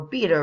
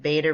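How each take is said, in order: First: It is said in a British way. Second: It is said in an American way.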